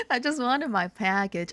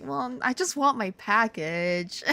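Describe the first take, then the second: First: Said in the usual way. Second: Slow, pouty little plea; hammed-up sulky request; mock pleading. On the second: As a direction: plead slowly with a pout. Acted plea on retold phone call.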